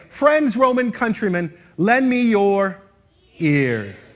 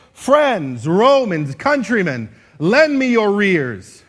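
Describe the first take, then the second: First: Loud, slow line with a clear break before "ears"; pause before EARS. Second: Loud oration with "your ears" run together into "your rears"; unclear, run-together words. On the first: Teacher showing clear Shakespeare, a pause before "ears". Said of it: "take a little bit of a pause before the word". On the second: Teacher mimicking unclear speakers, "your ears" slurred into "your rears". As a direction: declaim it, sliding "your" straight into "ears" as "rears". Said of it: "people who aren't clear tend to say it like this". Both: Shown as a demonstration.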